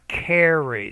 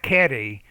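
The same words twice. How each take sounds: First: The R sounds like an English R. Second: The R sounds like a non-English R. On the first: The speaker calls it right. "but carry ... but it's more carry" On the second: The speaker calls it wrong. "not carry, ... you're pronouncing it like you pronounce in your language"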